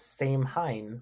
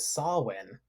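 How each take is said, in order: First: It is said with a clear 'h' sound. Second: It is said 'sow-in' without an 'h' sound. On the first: It is read as it is spelled. The speaker calls it wrong. "I read it and I was like, "Oh, it's Same Hein"" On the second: This is the real pronunciation. The speaker calls it right. "looked at the pronunciation. Oh, it's oh, it's Sawin"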